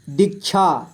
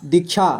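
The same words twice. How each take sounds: First: दीक्षा split into दीक, छा; syllable by syllable. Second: Said in the usual way. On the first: Shown as a demonstration. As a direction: separate the two syllables of दीक्षा. (दीक्षा को तोड़कर पढ़ें) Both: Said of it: "थोड़ा fast पढ़ेंगे".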